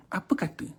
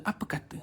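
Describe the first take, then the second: First: Said in the usual way. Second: Breathy hushed "Apa kata?" said with no voice; devil's whisper. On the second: Acted. Devil whispers to Abid, hushed whisper. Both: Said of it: "dia bisik punya hal".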